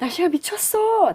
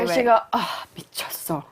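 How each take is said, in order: First: It sounds delighted, with an excited gasp. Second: It sounds annoyed, with a sighing pause.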